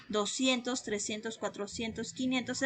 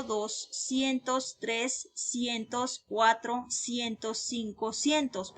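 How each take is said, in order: First: Said in the usual way. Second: Slow, softer literal doscientos and cinco cientos; the way we don't say it; wrong literal form. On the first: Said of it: "decimos cien". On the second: Shown as a demonstration. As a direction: spell out the literal translation deliberately. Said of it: "pero no decimos así".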